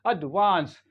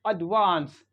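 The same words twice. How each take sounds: Both takes have the same delivery.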